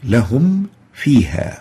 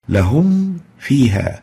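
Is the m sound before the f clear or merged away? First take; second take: clear; clear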